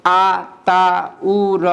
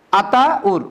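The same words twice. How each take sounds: First: "আ, তা, উ, র" very slow, each separate; broken into syllables. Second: "Ataur" as two beats, আতা and উর; split into big chunks. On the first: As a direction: draw out each of "আ, তা, উ, র". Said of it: "আমি যদি স্বরান্ততে যাই". ("আ, তা, উ, র" টেনে টেনে আলাদা করে) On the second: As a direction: break "Ataur" only once, after আতা. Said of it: "যদি ব্যঞ্জনান্ত যাই". ("আতাউর" দুই ভাগে: আতা, উর) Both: Shown as a demonstration.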